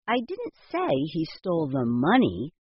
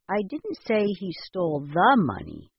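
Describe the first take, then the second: First: The stress is on the word money. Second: The stress is on the word the.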